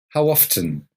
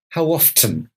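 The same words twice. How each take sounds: First: The T in often is pronounced. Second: The T in often is pronounced.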